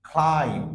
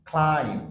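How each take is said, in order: The two takes are said the same way.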